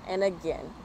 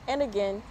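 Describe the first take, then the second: No difference in how they are said.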